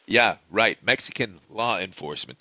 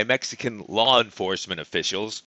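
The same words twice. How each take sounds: First: Dry, scoffing aside, pitched lower; sarcastic aside. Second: Said in the usual way. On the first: Real, not acted. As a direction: drop the pitch and repeat it in disbelief.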